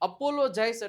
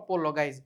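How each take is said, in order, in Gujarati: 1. મધ્યમ વ્યંજન J અવાજ છે. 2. મધ્યમ વ્યંજન હાર્ડ G અવાજ છે.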